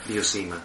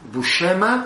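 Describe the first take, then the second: First: The name is said with American pronunciation. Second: The name is said with Italian pronunciation. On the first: "Por la pronunciación americana" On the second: "si es pronunciación italiana"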